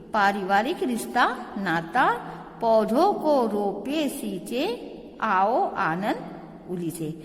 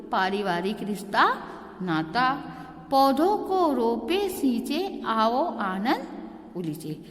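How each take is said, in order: No difference in how they are said.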